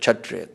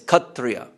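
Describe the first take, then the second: First: The word begins with 'ksh'. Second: The word begins with 'kh'. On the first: "the Sanskrit word Kshatriya" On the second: "when you hear that pronounced in Bangla"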